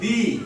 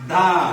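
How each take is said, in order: First: The word ends in a long 'ee' vowel. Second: The word ends in a short 'uh' vowel. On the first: "এর উচ্চারণ একটা হচ্ছে দি" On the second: "আরেকটা উচ্চারণ হচ্ছে দা"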